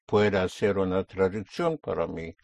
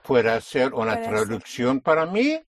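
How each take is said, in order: First: The voice falls or stays level at the end. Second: The voice rises at the end. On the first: It is a polite request to do something. "Instead of saying, will you make a translation" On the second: It asks whether the listener is able to do it. "That becomes a question and you will use inflection"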